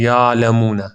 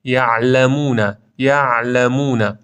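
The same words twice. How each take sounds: First: یعلمون with ع slackened into a long vowel; slack, smeared ع in یعلمون; overly lax ع. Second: Slow یعلمون with a half-held ع; measured, drawn-out یعلمون; balanced ع. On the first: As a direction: say یعلمون loosely, like "yaa-lamun". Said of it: "خیلی با رخوت بخونید". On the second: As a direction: recite یعلمون with ع neither stopped nor slack. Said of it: "ما بین این دوتا". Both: Shown as a demonstration.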